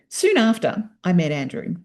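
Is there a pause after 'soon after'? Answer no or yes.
yes. It has a pause after 'soon after'. The meeting happened soon after the earlier events. The speaker calls it right.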